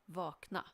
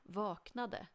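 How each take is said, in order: First: The final -de syllable is dropped. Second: The final -de syllable is pronounced. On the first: "in spoken Swedish we often don't bother with pronouncing the ending" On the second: "you always write the full form, and it's not wrong to pronounce it"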